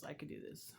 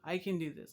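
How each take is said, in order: First: Whispering it to herself, fading out; a last whispered try at courage. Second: Said in the usual way. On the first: Retold or imitated. Sick at work, whispering encouragement to herself. Self-talk pep, repeated in whisper.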